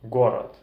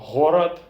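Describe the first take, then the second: First: The word begins with a g sound. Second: The word begins with an h sound. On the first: This is the Russian pronunciation. "g in Russian" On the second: This is the Belarusian pronunciation. "the sound h in Belarusian"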